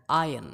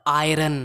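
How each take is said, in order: First: Iron as AI-un; correct pronunciation. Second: Iron with audible r, AI-run; wrong pronunciation. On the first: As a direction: silent r in iron. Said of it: "it's iron". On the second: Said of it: "not iron". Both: Shown as a demonstration.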